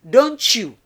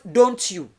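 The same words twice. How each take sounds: First: The t and y merge into a ch sound. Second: The t and y are pronounced separately. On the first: The speaker calls it right. "you are to pronounce the T and Y as C H. So it should be don't you" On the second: The speaker calls it wrong. "It's not don't you"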